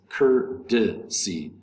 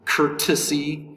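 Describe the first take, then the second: First: The middle consonant is a soft D sound. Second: The middle consonant is a clear T sound. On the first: The speaker calls it right. "The T in courtesy is going to be pronounced like a D in American English" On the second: The speaker calls it wrong. "So instead of courtesy"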